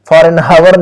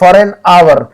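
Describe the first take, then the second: First: The word hour begins with an h sound. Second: The word hour begins without an h sound. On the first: The speaker calls it wrong. "एच की आवाज को नहीं निकालेंगे, हावर नहीं कहेंगे" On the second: The speaker calls it right. "एच silent है वहां पर, ओनली ओ की आवाज निकालेंगे"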